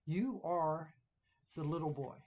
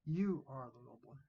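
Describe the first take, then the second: First: "You" dito mais alto e acentuado; stress on You. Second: "You" acentuado, final subindo; stress on You. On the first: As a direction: aperte a palavra "You". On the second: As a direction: marque "You" de leve. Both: Shown as a demonstration. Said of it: "Notice the pronoun".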